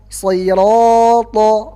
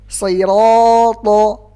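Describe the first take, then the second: Both takes have the same delivery.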